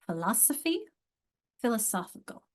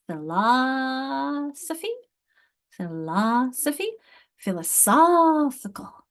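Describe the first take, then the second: First: "Philosophy" stressed on LOS, "philosophical" on SOPH; stress shift demo. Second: "Philosophy" drawn out slowly, "philosophical" louder and higher on SOPH; exaggerated stress demo. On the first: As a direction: move the stress between the two words. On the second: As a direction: overdo the stress shift slowly. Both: Shown as a demonstration. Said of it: "It's an accent change".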